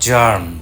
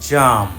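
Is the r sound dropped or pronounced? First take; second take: pronounced; dropped. First: The r sound is pronounced. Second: The r sound is dropped. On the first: This is the American pronunciation. "আমেরিকানরা হার্ড, স্কার্ট, জার্ম এইভাবে বলে" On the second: This is the British pronunciation. "ব্রিটিশরা আর এর উচ্চারণ করে না"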